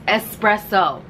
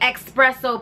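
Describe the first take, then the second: First: The middle consonant sounds like a plain s. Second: The middle consonant sounds like ks, not s. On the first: The speaker calls it right. "with an S" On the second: The speaker calls it wrong. "Don't say espresso"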